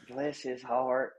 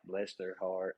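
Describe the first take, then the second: First: It sounds proud and admiring. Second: It sounds sorry and pitying.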